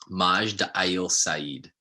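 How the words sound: The name is said with an attempted Arabic pronunciation. This is roughly how the name is really pronounced. "I'm going to butcher this, but the name sounded like"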